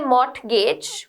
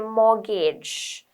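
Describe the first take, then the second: First: The T sound in the middle is pronounced. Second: The T sound in the middle is silent. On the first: The speaker calls it wrong. "We don't say mortgage" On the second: The speaker calls it right. "we say mortgage. The T is silent"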